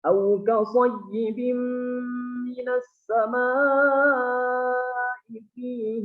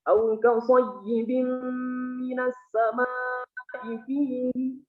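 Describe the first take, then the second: First: The long vowel in samaa is held full length. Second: The long vowel in samaa is cut too short. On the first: The speaker calls it right. "Itu sempurna ya" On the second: The speaker calls it wrong. "kurang, mad wajibnya kurang"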